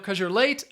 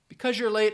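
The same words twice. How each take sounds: First: The word because is shortened to cuz. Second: The word because is said in full.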